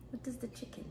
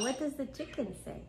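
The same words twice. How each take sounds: First: Whispered coaxing to a pet. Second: Said in the usual way. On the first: Shown as a demonstration. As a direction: whisper the question gently. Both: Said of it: "practice your animal sounds".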